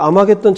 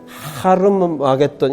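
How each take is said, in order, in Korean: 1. 이 이름은 모음 소리로 시작해요. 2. 이 이름은 h 소리로 시작해요. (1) "아마겟돈이 아니고" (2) "하르마겟돈 이렇게 발음을 해야 돼요"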